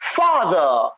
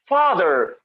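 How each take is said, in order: First: It is said in a British accent. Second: It is said in an American accent. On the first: "British pronunciation"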